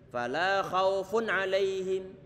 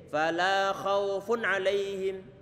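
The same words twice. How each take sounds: No difference in how they are said.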